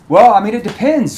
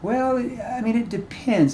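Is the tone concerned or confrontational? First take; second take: confrontational; concerned. First: The tone is blunt and confrontational. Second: The tone is soft, concerned and empathetic. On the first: The speaker is challenging the other person. The speaker calls it wrong. "you might get a prospect that gets defensive from that tone" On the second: The speaker cares about the other person's situation. The speaker calls it right. "you have to use a concerned tone here, a tone that shows empathy"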